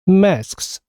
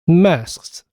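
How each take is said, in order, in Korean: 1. 세 개의 끝 자음 s, k, s가 모두 발음됩니다. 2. 세 개의 끝 자음 s, k, s가 모두 발음됩니다.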